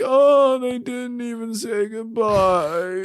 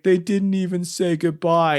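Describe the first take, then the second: First: Put-on higher, slow, frail old man voice; a small, hurt old man voice said slowly; quiet old man. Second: Said in the usual way. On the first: Ornament Noel lamenting his lost friends, frail old man. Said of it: "quietly, like an old man". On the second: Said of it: "He's like".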